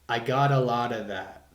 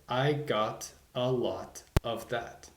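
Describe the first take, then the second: First: The words flow together, linked smoothly. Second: Each word is said separately, not linked. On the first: The speaker calls it right. "bringing words together" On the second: The speaker calls it wrong. "instead of"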